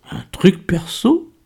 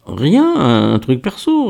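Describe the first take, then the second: First: Slow, high teasing echo; titillated. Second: High-pitched "rien", then a stammered evasion; very embarrassed. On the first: Miguel scents a love affair in Kader's secret, titillated. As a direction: draw the question out with rising, tickled curiosity. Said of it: "tout à fait émoustillé". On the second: Kader hides his audition from Miguel, very embarrassed. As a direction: dodge the question awkwardly, tripping on the words. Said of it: "très embarrassé". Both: A narrator's reading.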